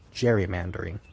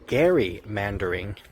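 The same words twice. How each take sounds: First: The first syllable does not sound like Gerry. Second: The first syllable sounds like the surname Gerry. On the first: The speaker calls it wrong. "you mispronounce it as gerrymandering" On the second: The speaker calls it right. "It's actually gerrymandering"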